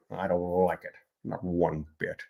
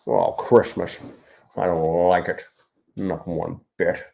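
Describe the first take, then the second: First: Softer sour Grinch sneer; Grinch impression. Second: Grinch impression. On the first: The Grinch sulking about Christmas for viewers. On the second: Author doing the Grinch voice for live viewers. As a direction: grumble it out like a grumpy Grinch. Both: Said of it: "Jim Carrey Grinch impersonation".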